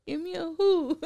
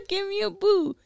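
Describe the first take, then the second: First: "who" stressed at the end, a touch softer; cheer on who. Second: "boo" punched at the end of a mock cheer. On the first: Retold or imitated. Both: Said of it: "And the cheerleaders".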